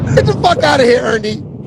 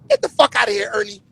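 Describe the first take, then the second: First: It is said in a tough, blunt voice. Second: It is said in a nerdy, weak voice.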